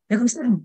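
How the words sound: It is abrupt and startling.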